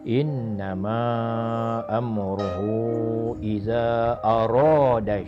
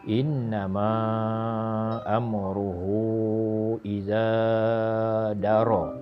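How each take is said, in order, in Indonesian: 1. Kata terakhir diucapkan sebagai 'arada'. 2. Kata terakhir diucapkan sebagai 'daro'. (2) "Kesalahan yang dibuatnya ialah"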